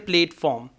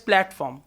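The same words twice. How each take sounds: First: The first syllable has a long 'a', like 'plate'. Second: The first syllable has a short 'a', like 'plat'. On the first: The speaker calls it wrong. "We don't say platform. Plate is P L A T E" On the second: The speaker calls it right. "That's why we pronounce it as platform"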